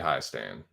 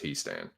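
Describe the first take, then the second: First: The first syllable has an 'eye' vowel. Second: The first syllable has an 'ee' vowel. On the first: The speaker calls it wrong. "if it was H E I, it would be high stand" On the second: The speaker calls it right. "but it's H I E, so it's he stand"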